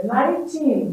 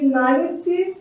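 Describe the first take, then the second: First: Put-on "nineteen" said slowly, ending in a long teen. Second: "ninety" said slowly, ending in a short ty. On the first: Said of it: "e a pronúncia anterior". ("nineteen" devagar, com teen longo) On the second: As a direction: end "ninety" on a clipped ty. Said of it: "a pronúncia seria". ("ninety" devagar, terminando em ty curto) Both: Shown as a demonstration.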